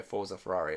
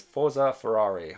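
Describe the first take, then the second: First: Said in the usual way. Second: Louder, slow, drawn-out "Forza Ferrari" cheer; chat cheer read out. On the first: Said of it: "I'm not gonna do it". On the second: Retold or imitated. Reading a viewer's chat message aloud, slow cheer. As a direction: belt out "Forza Ferrari" like a fan chant. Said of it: "I can't say it in an Italian voice".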